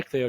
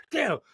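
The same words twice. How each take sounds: First: Said in the usual way. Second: Put-on high-pitched, snappy rebuke of a child; retold snap. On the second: Dad losing patience with his four-year-old, retold snap. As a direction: snap the name in mock parental exasperation. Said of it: "a bit louder and snappy".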